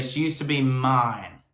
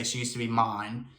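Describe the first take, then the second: First: Slow, light North Carolina-esque Southern accent on "mine". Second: Said in the usual way. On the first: Shown as a demonstration. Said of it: "She's adding that accent on". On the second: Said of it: "vocally, you wouldn't say".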